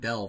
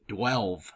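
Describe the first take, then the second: First: It starts with a plain d sound. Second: A w sound follows the d. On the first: The speaker calls it right. "I said the word delve" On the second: The speaker calls it wrong. "why are you putting a W?"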